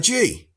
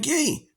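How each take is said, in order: First: The word starts with a soft j sound. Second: The word starts with a hard g sound. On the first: The speaker calls it wrong. "which however you pronounce it. I forget" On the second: The speaker calls it right. "I think it's actually pronounced gi"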